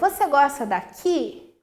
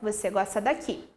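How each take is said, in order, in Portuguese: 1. Isso é dito com uma entonação interrogativa. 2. Isso é dito com uma entonação de afirmação. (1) "Olha só a entonação que eu utilizo" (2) "se eu vou fazer uma afirmação"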